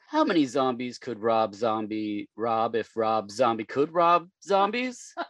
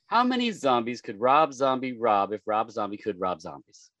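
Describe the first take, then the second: First: The sentence is said at a normal, slower pace. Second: The sentence is said at a quicker, faster pace.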